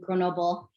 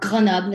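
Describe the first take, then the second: First: It is said with an English accent. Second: It is said with a French accent.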